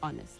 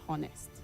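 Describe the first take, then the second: First: The word begins with a vowel, no H. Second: The word begins with an audible H sound. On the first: The speaker calls it right. "the H is silent in that word" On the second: The speaker calls it wrong. "so don't say honest"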